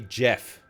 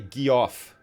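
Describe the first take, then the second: First: It begins with a soft J sound. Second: It begins with a hard G sound. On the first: The speaker calls it right. "You would say Jeff, it's with a soft G" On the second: The speaker calls it wrong. "You wouldn't say Geoff"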